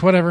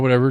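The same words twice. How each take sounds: First: It sounds mean and dismissive. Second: It sounds easygoing and relaxed. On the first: The speaker does not care at all. "I don't fucking care. Like in a, like in a mean way" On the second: The speaker is fine with anything. "whatever, chill, cool"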